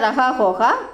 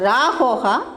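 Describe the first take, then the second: First: The first word keeps both syllables, 'raha'. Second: The first word is shortened to one syllable, 'ra'. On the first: This is the standard written form. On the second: This is the everyday spoken form.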